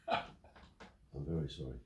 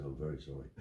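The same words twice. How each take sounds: First: Drawn out slowly, soft and low; slow mock-meek apology. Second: Softer, lower mock-contrite apology; mock sheepish apology. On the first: Storyteller repeats the bailiff's apology slowly for comic effect. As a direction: savour the bailiff's climbdown, very slowly. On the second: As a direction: mimic the bailiff's meek climbdown. Retold bailiff apology.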